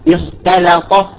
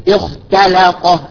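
Both takes have the same delivery.

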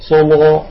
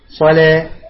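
First: The L sounds thick and heavy. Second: The L sounds thin and light. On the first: It follows one recitation tradition. "هذا اللام فخمة، صلا صلا على قراءة ورش" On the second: It follows the other recitation traditions. "المرققة صلا صلا على قراءة الباقي"

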